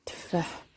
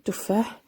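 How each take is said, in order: First: تفاح as tfah, first vowel dropped; Moroccan pronunciation. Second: تفاح with a clear u after the t; standard Arabic pronunciation. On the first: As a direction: say "تفاح" Moroccan-style, t running straight into f. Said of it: "باللهجة المغربية". (نطق تفاح بالدارجة المغربية، بتسكين التاء) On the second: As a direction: say "تفاح" as tuf-FAH, rising at the end. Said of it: "زي اللغة العربية". (نطق تفاح بالعربية الفصحى، بضم التاء) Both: Shown as a demonstration.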